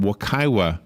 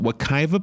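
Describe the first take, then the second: First: The consonant before the final vowel is W. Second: The consonant before the final vowel is V.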